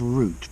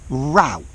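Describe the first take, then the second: First: The word is said with a British pronunciation. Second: The word is said with an American pronunciation. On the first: "The British only use route" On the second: "the Americans also pronounce this word route"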